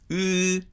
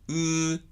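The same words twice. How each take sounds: First: The lips are spread sideways for the vowel. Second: The lips stay neutral and unmoved for the vowel. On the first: "積極的に唇を横に開くわけでもないし" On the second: "レディーポジションから動かさないニュートラルでもない"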